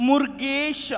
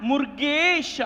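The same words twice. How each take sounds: No difference in how they are said.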